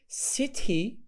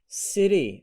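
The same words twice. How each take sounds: First: The middle t is a clear t sound. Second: The middle t is a soft d sound. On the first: "City British" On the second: "city American"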